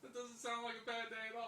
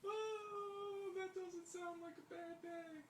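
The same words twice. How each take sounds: First: Higher-pitched, unimpressed teasing; moderately raised pitch, no falsetto; mock dismissal. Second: Very high falsetto cooing; drawn-out, high-pitched mock concern; mock sympathy. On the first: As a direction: repeat it as a teasing verdict. Repeats the mock remark, lower. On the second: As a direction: sing out fake pity in a high voice. Mock sympathy over listener's complaint.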